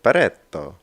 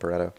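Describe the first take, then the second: First: It is said in an imitation Italian accent. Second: It is said in a plain English accent. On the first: "It's my fake Italian accent there" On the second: "I'm going to call them Pareto"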